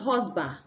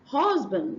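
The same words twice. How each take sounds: First: The final consonant sound is left off. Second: The final consonant sound is clearly pronounced. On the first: The speaker calls it wrong. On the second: The speaker calls it right.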